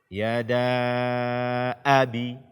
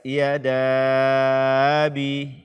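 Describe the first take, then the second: First: A clear glottal stop is heard before abi. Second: The glottal stop before abi is softened or dropped. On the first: The speaker calls it right. "hamzah fathah dengan jelas" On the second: The speaker calls it wrong. "Jangan sampai kita tashilkan atau kita hilangkan dia"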